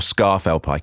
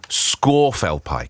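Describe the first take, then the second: First: The first syllable sounds like 'scar'. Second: The first syllable sounds like 'score'. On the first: The speaker calls it wrong. "it's not" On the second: The speaker calls it right. "it's actually Scorfell-Pike. Apparently that's the correct pronunciation"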